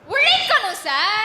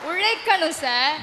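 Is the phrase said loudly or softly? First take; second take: loudly; softly. First: It is said loudly and forcefully. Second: It is said softly and gently. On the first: The speaker calls it wrong. "பாப்பா மெதுவா பேசுமா" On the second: The speaker calls it right. "அப்படி அப்படி மெதுவா"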